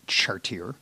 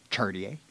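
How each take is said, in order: First: "chartier" as shar-teer, hard American R's; American mispronunciation. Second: "chartier" as char-dee-ay, with ch as in chair; American mispronunciation. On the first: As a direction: say "chartier" with an R-heavy ending. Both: Shown as a demonstration. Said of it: "which is not like Americans".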